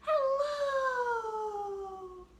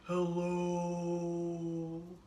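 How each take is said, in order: First: It is said in a very high pitch. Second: It is said in a very low pitch. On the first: "as high as we can" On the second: "as low as we can"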